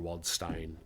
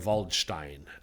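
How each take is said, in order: First: The name is said in an American way. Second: The name is said in a German-style way.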